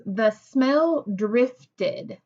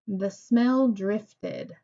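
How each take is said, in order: First: "The smell drifted" read slowly and evenly, falling at the end; calm, drawn-out statement; slow plain statement. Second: "The smell drifted" slow and level, falling at the end; unhurried statement read; slow plain statement. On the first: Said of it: "Is that a sentence that I would read excited?". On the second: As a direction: repeat "The smell drifted" as a flat fact. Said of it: "just a simple statement". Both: Shown as a demonstration.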